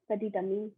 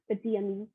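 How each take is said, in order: First: The T is pronounced and linked to ami. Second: The T is silent before ami. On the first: The speaker calls it right. "I was pronouncing the T here" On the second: The speaker calls it wrong. "instead of"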